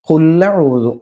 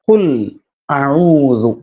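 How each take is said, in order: First: The words run together with no glottal catch. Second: A clear glottal catch separates the two words. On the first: The speaker calls it wrong. "ഖുല്ലഊദു എന്നാണ് നമ്മൾ പറയാ അല്ലെ. ... അങ്ങനെയാണോ? അല്ല" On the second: The speaker calls it right. "അങ്ങനെയാണ് ശരിക്കും അതിന്റെ ഉച്ചാരണം. ഇപ്പൊ മുറിയണം"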